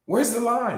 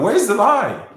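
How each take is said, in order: First: High-pitched challenge, short of shouting; emotional. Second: Loud, high-pitched challenge; emotional shout. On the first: Speaker challenging doubters after an outburst, emotional high voice. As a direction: press the question, voice still raised high. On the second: Speaker challenging doubters to find a lie, emotional shout. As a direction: shout the question at your accusers. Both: Real, not acted. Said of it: "I get emotional".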